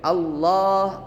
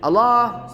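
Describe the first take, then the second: First: The l sound is held doubled. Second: The l sound is single and short. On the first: The speaker calls it right. "Tapi double L" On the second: The speaker calls it wrong. "Gak boleh juga tidak pakai tasydid ... salah juga"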